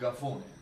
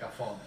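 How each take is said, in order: First: It is said in dialect, starting with g. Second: It is said with a standard Italian hard k.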